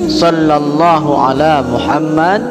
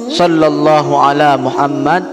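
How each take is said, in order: The two takes are said the same way.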